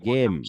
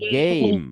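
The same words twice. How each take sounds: First: The vowel is a flat a sound. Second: The vowel glides from e to i. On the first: The speaker calls it wrong. "আমরা আগে পড়তাম কি গেম" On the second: The speaker calls it right. "আগের ভাওয়েলকে long sound দিবে"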